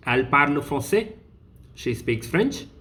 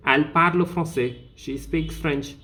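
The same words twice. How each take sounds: First: "français" and "French" rising at the end; question intonation. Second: Said in the usual way. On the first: Shown as a demonstration. Teacher showing the question form, tone rising on "français" and "French". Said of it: "the tone raise". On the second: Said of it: "which is an information".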